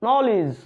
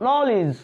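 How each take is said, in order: Both takes have the same delivery.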